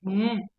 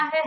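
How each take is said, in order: First: हैं said with a nasalised vowel; nasalisation. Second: है said with an open oral vowel, no nasal; sans nasalisation. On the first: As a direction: let the vowel of हैं ring through the nose. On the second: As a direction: say है purely through the mouth, without nasalising. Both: Shown as a demonstration. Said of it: "एक में होती है बिंदी".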